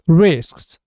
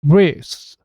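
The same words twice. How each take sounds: First: All three final consonants s, k, s are pronounced. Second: The k drops and two short s sounds follow. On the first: "이게 좀 전에 우리가 들었던 발음입니다" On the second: "그 사운드는 없어지고 스 사운드가 아주 짧게 연속해서 발음됩니다"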